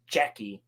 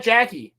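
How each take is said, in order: First: "Jackie" pronounced JECK-ee, with an e; Jecki with emphasis. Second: "Jackie" with a short a as in cat; plain everyday Jackie. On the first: Shown as a demonstration. Showing the emphasis they don't put on it, "Jackie" as JECK-ee. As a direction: stress a distinct "eh" in "Jackie", as JECK-ee. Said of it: "don't actually put any emph". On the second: Retold or imitated. Mimicking how they call her, "Jackie" as the everyday name. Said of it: "They just call her".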